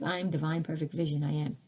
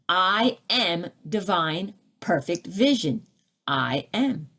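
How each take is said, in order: First: It is said meekly, without authority. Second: It is said firmly, with authority.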